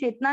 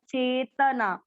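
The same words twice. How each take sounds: First: The vowel after the t sound is dropped. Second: The vowel after the t sound is kept. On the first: The speaker calls it wrong. "चेतना नहीं बोला" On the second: The speaker calls it right. "त पूरा त में अ mix करेंगे"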